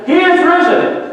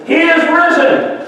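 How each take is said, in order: First: High, ringing shout of the proclamation; louder yell. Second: High ringing proclamation shouted out; yelled out. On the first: Priest calling again, louder, over the rally. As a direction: belt it out louder. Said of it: "He yelled a little bit louder". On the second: Priest shouting over the communist speaker. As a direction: call it out over the crowd. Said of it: "he yelled out". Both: Retold or imitated.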